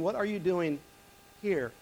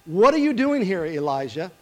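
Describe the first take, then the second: First: Reflective, pointing at "here?"; stress on here. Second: Voice of God. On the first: Shown as a demonstration. Preacher musing aloud to the congregation, softly stressing "here?". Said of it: "Not what are you doing there". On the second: Acted. The Lord questioning Elijah in the cave, loud and commanding. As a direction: call out the question with authority. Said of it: "the word of the Lord came to him".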